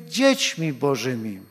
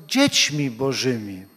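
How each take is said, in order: No difference in how they are said.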